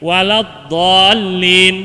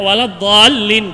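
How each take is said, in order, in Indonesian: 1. Vokal panjangnya dibaca enam ketukan. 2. Vokal panjangnya dibaca dua ketukan. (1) "dallin itu mestinya enam harokat" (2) "dua harokat aja, dua ketukan aja. Ini salah"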